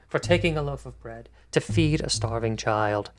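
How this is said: The voice falls at the end, like a statement. The speaker calls it right. "it's not a question"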